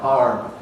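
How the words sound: A long vowel followed by an R sound. "In the west of England, where R is retained"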